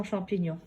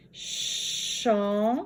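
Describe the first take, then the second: First: Said in the usual way. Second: "Champignon" very slowly, a long held cham, then pi, then gnon; syllable by syllable. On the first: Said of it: "Corrigeons champignon". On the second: Shown as a demonstration. Teacher correcting the exercise, "Champignon" stretched into separate syllables. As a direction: isolate each syllable with pauses. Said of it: "dans la troisième syllabe".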